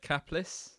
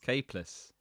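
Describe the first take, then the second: First: The first syllable sounds like 'cap'. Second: The first syllable sounds like 'cape'. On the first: The speaker calls it wrong. "I would have said Capless" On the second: The speaker calls it right. "the real pronunciation"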